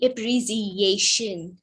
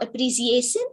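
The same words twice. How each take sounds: First: The middle consonant is an sh sound. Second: The middle consonant is a plain s sound. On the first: The speaker calls it right. "It should be appreciation, sh sound" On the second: The speaker calls it wrong. "The same goes for appreciation"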